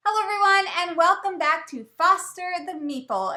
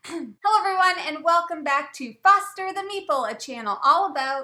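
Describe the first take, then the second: First: Loud upbeat host intro; bright announcer welcome; channel intro. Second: Fast loud host intro; rapid excited announcer welcome; channel intro. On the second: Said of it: "Change the friggin' record". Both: Acted.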